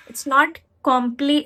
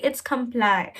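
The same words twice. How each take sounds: First: "comply" said kom-plee, open first syllable, ending "plee"; the mistake, kom-plee; wrong pronunciation. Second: "comply" said kuhm-PLY, weak first syllable, stress on PLY; corrected "comply" ending in "ply"; right pronunciation. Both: Shown as a demonstration.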